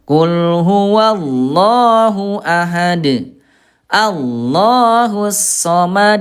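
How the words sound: There is a breath pause between the phrases.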